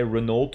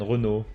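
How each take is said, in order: First: Renault said English-style with sounded L and T; English pronunciation. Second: Renault said French-style, silent ending; French pronunciation. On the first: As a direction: say Renault as "reh-NOLT". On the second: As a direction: say Renault as "ruh-NOH" with a French r. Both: Shown as a demonstration. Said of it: "the car brand in English is called".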